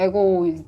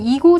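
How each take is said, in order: First: The first vowel sounds like 'eh'. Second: The first vowel sounds like 'ee'. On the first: "에고라고도 이렇게 뭔가 다, 발음을 하시는 것 같은데" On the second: "저는 이고라고 발음을 하겠습니다"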